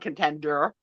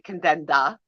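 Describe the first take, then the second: First: It has the final R pronounced clearly. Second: It has a Jersey accent without final R.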